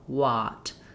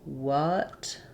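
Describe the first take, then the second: First: The vowel is an open, clear ah sound. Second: The vowel is a short, reduced uh sound. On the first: The speaker calls it wrong. "you might be using more of the a sound" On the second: The speaker calls it right. "instead of using the uh"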